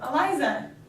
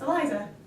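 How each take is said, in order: First: The name is said slowly and haltingly. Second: The name is said quickly and smoothly. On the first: Signals travel without a myelin sheath. "like a six-month-old" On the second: Signals travel with a myelin sheath.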